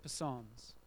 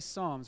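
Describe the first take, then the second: First: The initial P is pronounced. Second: The initial P is silent. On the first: "Afrikaans people stand up and they say Psalms" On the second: "in English we say Psalms, we don't say the P"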